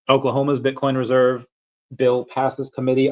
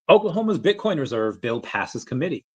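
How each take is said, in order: First: It is read in a plain, low-energy way. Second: It is read with lively, high energy.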